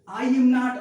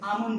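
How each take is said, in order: First: The three words are said fully and separately. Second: The words are merged into one short word.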